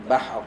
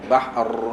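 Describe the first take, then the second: First: The final r is placed lightly, not pushed. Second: The final r is pushed out with force. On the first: The speaker calls it right. "Letak bahr" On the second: The speaker calls it wrong. "jangan bahr. Ha, jangan duk paksa dia keluar"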